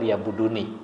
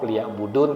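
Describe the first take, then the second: First: The word ends with a final vowel sound. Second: The word ends on a consonant, final vowel dropped. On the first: This is the full form that carries the meaning. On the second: This is the pausal form used when stopping. "dibacanya waqaf"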